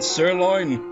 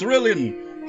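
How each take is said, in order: First: It is said as the usual two-syllable word. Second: It is said with extra syllables, like cerulean. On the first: The speaker calls it right. "remember freaking sirloin?" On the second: The speaker calls it wrong. "For years I pronounced it as cerulean"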